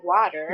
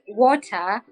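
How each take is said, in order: First: It is said with an American accent. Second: It is said with a Kenyan accent.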